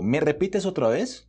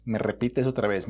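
First: 1 rising question. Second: 1 falling statement. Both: Shown as a demonstration.

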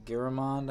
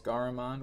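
First: Garamond with first syllable like "GAIR"; unsure pronunciation. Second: Garamond with first syllable like "GAR"; alternative pronunciation. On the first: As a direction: say Garamond as "GAIR-uh-mond", tentatively. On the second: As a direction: say Garamond as "GAR-uh-mond", with an open a. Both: Shown as a demonstration. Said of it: "however you pronounce it".

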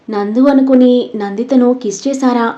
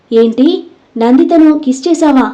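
First: Said in the usual way. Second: Mild narrated yell, pitched higher; shocked yell. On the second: A narrator's reading. Krish reacts to the confession with a shocked, mild yell. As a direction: exclaim it in disbelief, a touch raised. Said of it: "రూమంతా దద్దరిల్లేలా అరిచాడు".

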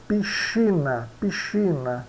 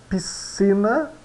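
First: PISCINA with SH, "pee-SHEE-na"; slow piscina, SC turned to SH; Italian pronunciation. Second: PISCINA with S, "pis-SEE-na", slow; higher, drawn-out piscina with plain S; read as spelt. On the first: Teacher models Italian, SC in piscina as SH. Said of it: "C H". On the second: Teacher shows learners the written word, SC as S. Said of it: "é que é pronunciado como". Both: Shown as a demonstration.

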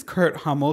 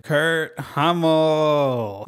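First: Said in the usual way. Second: Very slow, drawn-out name reveal; theatrical, lingering announcement of the name; dramatic reveal. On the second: Acted. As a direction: stretch out KURT HUMMEL for a big reveal. You know who else was a closeted theater kid.

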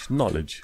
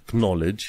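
First: "knowledge" with a silent K; correct pronunciation. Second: "knowledge" with the K sounded; wrong pronunciation. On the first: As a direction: say "knowledge" as "nol-edge". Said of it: "K-ul ăla nu se pronunță". ("knowledge" fără K) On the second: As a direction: say "knowledge" as "k-nowledge". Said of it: "nu pronunți knowledge cu K". ("knowledge" cu K pronunțat, greșit) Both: Shown as a demonstration.

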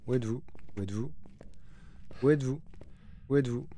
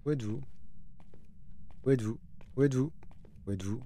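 Both takes have the same delivery.

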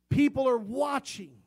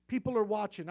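First: "people" hit high and loud; preacher warning his flock, raised and high. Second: Said in the usual way. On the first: Real, not acted. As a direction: call it out to the congregation. Preacher repeats warning phrase.

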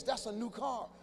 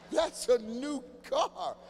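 First: Said in the usual way. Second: That's a new car drawn out very slowly; slow, punchy repeat; slow emphatic repeat. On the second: Shown as a demonstration.

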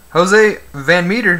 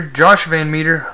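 First: Jose with an h sound, HO-zay; Jose said as hoʊzeɪ, Spanish style; misreading as Jose. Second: Said in the usual way. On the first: Real, not acted. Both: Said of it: "I said Jose".

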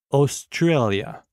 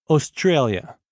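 First: Australia said slowly, each syllable drawn out; slow teacher's echo of Australia; slow repeat. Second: Said in the usual way. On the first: Shown as a demonstration. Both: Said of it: "Écoutez et répétez après moi".

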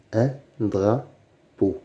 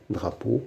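First: "un drapeau" slowly, a pause between syllables. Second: Said in the usual way. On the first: Shown as a demonstration. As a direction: sound out "drapeau" in separate beats. Teacher splits word into syllables. (« un drapeau » lentement, syllabe par syllabe)

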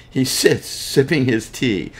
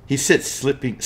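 First: Reading on with a laugh after the slip; laughing at own slip. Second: Said in the usual way. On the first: Real, not acted. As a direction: chuckle through the corrected line.

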